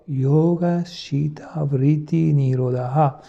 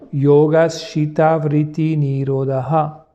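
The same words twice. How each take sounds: First: It is said very softly, barely voiced. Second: It is said one step softer and lower. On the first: "Et encore une fois" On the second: "on va baisser d'un ton"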